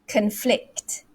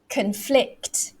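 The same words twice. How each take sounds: First: The stress is on the second syllable. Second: The stress is on the second syllable.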